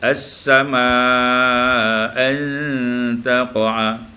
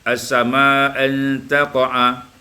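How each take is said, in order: First: The long vowel is held medium, four beats. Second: The long vowel is held short, two beats. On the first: "atau dibaca dengan tawassut" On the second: "ma'al qasar wa tawassut"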